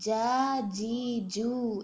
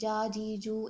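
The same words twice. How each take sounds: First: The syllables are said with full force. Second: The syllables are said loosely with little force. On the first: The speaker calls it right. "جا فل فورس, ایک اسٹرینتھ ہے اس لیٹر کے اندر" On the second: The speaker calls it wrong. "یعنی لوزلی نہیں ادا کرنا کہ جا جی جو, ایسے نہیں"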